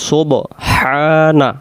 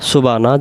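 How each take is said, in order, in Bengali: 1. মাঝের 'হ' ধ্বনি উচ্চারিত হয়। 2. মাঝের 'হ' ধ্বনি বাদ পড়ে। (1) "তাহলে আমরা বলবো সোব হানা" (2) "সুবানা সুবানা সুবানা যেন না হয়। ... হা অক্ষরটা বাদ চলে যায়।"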